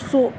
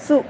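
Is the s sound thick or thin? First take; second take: thick; thin. First: The s is thick, with the tongue back raised. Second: The s is thin, with the tongue back low. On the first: The speaker calls it wrong. "इसको सु सु ये नहीं पढ़ना" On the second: The speaker calls it right. "सु सु ये आवाज़ है"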